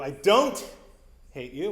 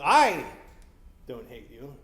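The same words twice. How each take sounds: First: No single word is given special stress. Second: The stress falls on the word "I". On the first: The speaker simply does not hate the listener. "which is uh, you know probably how you the meaning of that sentence" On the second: Someone else must hate the listener. "well, who does? Uh, someone else must hate me"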